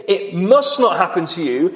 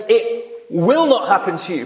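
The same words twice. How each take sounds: First: Said in the usual way. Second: "will" pressed firm as a certainty; stress on will. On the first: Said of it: "He doesn't say". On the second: Shown as a demonstration. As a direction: lean on "will" to show no doubt. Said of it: "could not state this in any more emphatic fashion".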